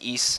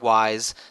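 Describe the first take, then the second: First: It rhymes with geese, ending in an s sound. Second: It rhymes with rise, with a long i vowel. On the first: The speaker calls it right. "it's pronounced East" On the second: The speaker calls it wrong. "not wise"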